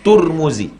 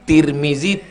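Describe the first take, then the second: First: The first syllable has a u vowel. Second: The first syllable has an i vowel.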